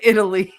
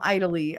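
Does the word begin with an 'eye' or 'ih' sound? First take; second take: ih; eye. First: The word begins with an 'ih' sound. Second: The word begins with an 'eye' sound. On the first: The speaker calls it right. "I come from Italy" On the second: The speaker calls it wrong. "I don't come from Italy"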